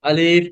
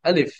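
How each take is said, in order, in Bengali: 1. স্বরধ্বনিটি টানা হয় আর লম্বা করে বলা হয়। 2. স্বরধ্বনিটি ছোট রাখা হয়, টানা হয় না। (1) "আলিফ বলা যাবে না কিন্তু" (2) "হ্যাঁ"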